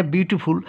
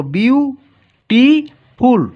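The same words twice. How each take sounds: First: Said in the usual way. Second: বিউটিফুল split into three loud, drawn-out beats, বিউ-টি-ফুল; syllable by syllable. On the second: Shown as a demonstration. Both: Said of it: "তিনটি syllable আছে".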